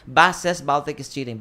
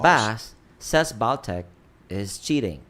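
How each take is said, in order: First: It is said straight through without pauses. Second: There are pauses after Bass and Baltic. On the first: Bass is reporting that Baltic is cheating. "Versus if you read it this way" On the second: Baltic is the one cheating. "when you see the comma, say Bass, Pause"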